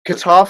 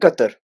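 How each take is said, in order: First: It is said with an English pronunciation. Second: It is said with an Arabic pronunciation. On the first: "Qatar for the English" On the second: "in Arabic"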